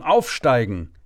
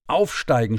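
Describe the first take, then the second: First: Louder urgent repeat of the order; narrated yell into the headset; retold shout. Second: Urgent call into the mic, louder; a narrator's mild mock yell; retold shout. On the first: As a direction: bark it harder the second time. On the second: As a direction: command to climb, pushed out. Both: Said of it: "schrie ich in mein Mikrofon".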